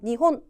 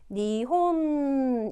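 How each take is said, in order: First: The final n is short and clipped. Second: The final n is held for a full beat. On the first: The speaker calls it wrong. "한국말처럼 니혼 이렇게 하시면 안 되고" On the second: The speaker calls it right. "한 박자의 존재를 밝혀주셔야 돼요"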